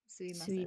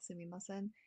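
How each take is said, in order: First: The middle 'ma' syllable is left out. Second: The middle 'ma' syllable is fully pronounced. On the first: "you can drop the ma sound and just say suimasen" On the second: "you can say it like sumimasen"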